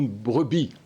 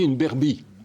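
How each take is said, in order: First: The word begins with a 'br' cluster. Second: The word begins with 'ber', vowel before r. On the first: This is the standard French form. "pour une brebis" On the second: This is the local dialect form. "nous on dit une berbie"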